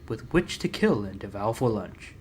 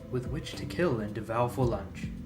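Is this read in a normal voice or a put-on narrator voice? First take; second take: put-on; normal. First: It is read in a put-on narrator voice. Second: It is read in his ordinary talking voice.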